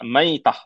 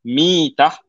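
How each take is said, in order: First: The first syllable has an 'ai' sound. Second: The first syllable has an 'i' sound. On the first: It means a carcass. The speaker calls it wrong. "mim ni kita baca dengan baris atas, fathah" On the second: It means a state of dying. The speaker calls it right. "kalau kita baca dengan kasrah"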